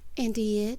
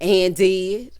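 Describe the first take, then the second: First: It is said flatly without much energy. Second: It is said with sassy, emphatic attitude.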